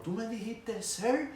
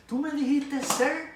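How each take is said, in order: First: High indignant shout rising on sir; outraged yell. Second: Much higher and louder, fully enraged; the drill instructor loses it completely; furious scream. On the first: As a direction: she can't believe he called her sir. (grito indignado y agudo) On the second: (grito furioso, mucho más agudo y fuerte) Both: Retold or imitated. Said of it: "esa mujer se volvió loca".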